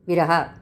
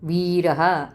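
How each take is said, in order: First: The first vowel is short and quick. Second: The first vowel is long and drawn out. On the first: The speaker calls it wrong. "वी जर ह्रस्व राहिलं असतं तर कसं म्हणलं असतं आपण? ... किती पटकन म्हणतो आपण" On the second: The speaker calls it right. "पण वीरहा दीर्घ लांब म्हणतो आपण"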